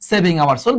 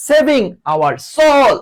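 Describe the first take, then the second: First: Said in the usual way. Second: High, drawn-out cry for help; long, high SOS plea; acted distress call. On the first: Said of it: "এইভাবে করি". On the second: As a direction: call out slowly as if in grave danger. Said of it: "কঠিন ভয়ঙ্কর বিপদে যখন পড়ে যায়".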